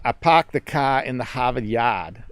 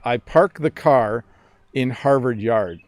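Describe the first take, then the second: First: It is spoken in an imitated Boston accent. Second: It is spoken in a Canadian accent. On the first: "me trying to sound like I'm from the East Coast" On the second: "in my Canadian accent"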